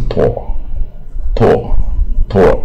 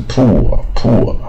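First: "poor" like "pore", spaced out; corrected poor. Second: "poor" with a long oo, "POO-er"; common oo reading. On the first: Teacher modelling for students, "poor" as pore. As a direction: repeat "poor" with an open vowel, as pore. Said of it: "它是poor". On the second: Teacher mimicking the usual mistake, "poor" with oo. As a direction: push "poor" into an oo sound. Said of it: "所以一般念成poor". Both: Shown as a demonstration.

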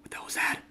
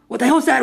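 First: Hushed, breathless whisper to himself; frightened whisper; scared whisper. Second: Higher, louder frightened yelp; jumpy shocked cry; startled outburst. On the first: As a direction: whisper it like something's listening. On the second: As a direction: blurt it out in a panic. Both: Real, not acted. Scared, hears noise in dark.

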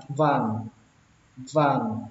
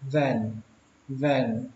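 First: "van" with an open ah, like "vang"; first way of VAN. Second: "van" with an e vowel, like "ven"; less accurate VAN. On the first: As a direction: say "van" with a broad a vowel. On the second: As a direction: say "van" with an open eh. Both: Shown as a demonstration. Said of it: "Cách thứ hai nó bớt chính xác hơn".

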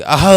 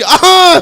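First: A weak, hoarse hawk with the voice gone; worn-out throat-clearing. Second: A high, loud, full-force hawk; shouted throat-clearing. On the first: After three hours of hawking, uncle tries again, hoarse throat-clear. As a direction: try to clear the throat with no voice left. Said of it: "અવાજ બેસી ગયેલો". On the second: Uncle hawks at full force to open the window, shouted throat-clear. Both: Retold or imitated.

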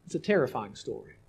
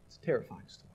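First: Said in the usual way. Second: Soft hushed echo. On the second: Acted. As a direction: repeat it softer, almost to yourself. Echoes line much softer.

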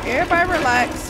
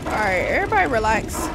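First: High, loud, quick order; urgent command. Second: Brisk, only slightly raised order; quick settling command. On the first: Player telling game figures to relax, urgent shout. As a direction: raise the voice to make them settle. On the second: Player telling game figures to relax, brisk and controlled. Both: Real, not acted.

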